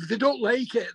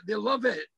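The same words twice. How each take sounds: First: Said in the usual way. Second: "love" leaned on, set against "like"; "love" stressed, the sentence dropping off softly after it. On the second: Retold or imitated. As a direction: hit "love" as the correction.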